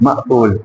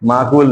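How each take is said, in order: First: The middle of the word has a sharp catch. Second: The middle of the word flows smoothly, without a catch. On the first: The speaker calls it right. "झटका देना है" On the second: The speaker calls it wrong. "माकूल नहीं"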